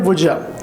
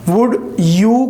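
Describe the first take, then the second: First: The second word is reduced to 'ya'. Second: The second word is a full 'you'. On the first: "हम पढ़ते हैं would या" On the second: "would यू के बजाय"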